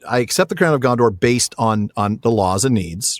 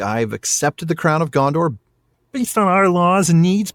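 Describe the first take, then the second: First: It is said in the speaker's normal voice. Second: It is said in a Kermit the Frog voice.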